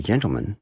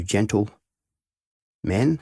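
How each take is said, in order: First: Said in the usual way. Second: "gentle" held, a long pause, then "men"; gentle men with a space. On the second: Shown as a demonstration. Headmaster telling boys he'll call them "gentle men" with a gap. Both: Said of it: "when you hear me put the space".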